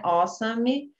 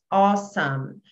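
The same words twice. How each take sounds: First: An extra vowel is heard after the M. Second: The word ends on the M sound. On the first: The speaker calls it wrong. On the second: The speaker calls it right.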